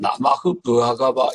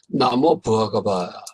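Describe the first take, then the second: First: The first word ends with an 'ah' sound. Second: The first word ends with an 'o' sound. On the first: This is the original, unchanged form. "원래는 나마흐 부하가바 이렇게 나가는 건데" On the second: The ending changed before the next word. "나모 부하가바 이렇게 바뀌었습니다"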